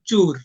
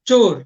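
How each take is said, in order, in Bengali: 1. স্বরধ্বনিটি আরও সংকীর্ণ 'u' হিসেবে উচ্চারিত হয়। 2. স্বরধ্বনিটি স্পষ্ট 'o' হিসেবে উচ্চারিত হয়। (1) "যখন তারা বলে তখন বের হয় চুর" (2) "তারা জানে চ ওকার র"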